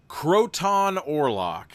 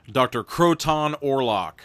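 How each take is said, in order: First: "Croton Orlok" drawn out very slowly, a little higher; name savoured slowly. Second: Said in the usual way. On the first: Shown as a demonstration.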